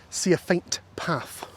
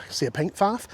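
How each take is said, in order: First: "faint" said slowly with a clear f; slow down and part "faint path" carefully; careful correction. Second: Said in the usual way. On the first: Real, not acted. Walker correcting a slip, "faint" slow and careful.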